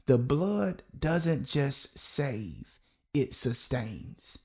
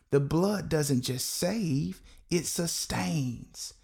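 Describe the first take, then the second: First: Very slow, drawn-out "The blood doesn't just save, it sustains"; slow call and response. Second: The blood doesn't just SAVE, it SUSTAINS, slow and weighty; slow emphatic declaration. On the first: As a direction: stretch every word so the congregation can follow. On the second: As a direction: set each word down slowly, stressing save and sustains. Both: Shown as a demonstration. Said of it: "I want you to say that with me".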